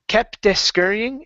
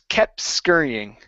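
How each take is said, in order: First: An extra vowel follows the T in kept. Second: The T runs straight into the S. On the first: The speaker calls it wrong. "adding an extra vowel behind the T" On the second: The speaker calls it right. "add the S to the T"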